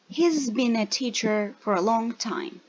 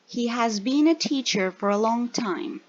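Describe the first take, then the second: First: The word has is contracted onto the pronoun. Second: The word has is said as a full word. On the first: "then the short form" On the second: "First the full form"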